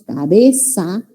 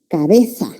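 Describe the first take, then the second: First: The middle consonant is an s sound. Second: The middle consonant is a th sound. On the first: This is how speakers in the Americas say it. "Para nosotros todo es S. Decimos cabeza" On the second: This is how speakers from Spain say it. "los españoles la pronuncian como interdental"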